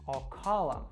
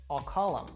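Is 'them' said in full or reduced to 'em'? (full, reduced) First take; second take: reduced; reduced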